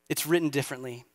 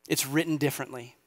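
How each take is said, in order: Both takes have the same delivery.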